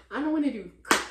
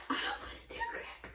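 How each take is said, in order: First: Loud, raised voice; loud complaint. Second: High, airy squeal of frustration; squeaky whine. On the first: First loud take of her dating rant. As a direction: shout it out, fed up. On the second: Repeating her rant as a squeaky whine. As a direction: squeak it out like a tantrum. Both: Real, not acted.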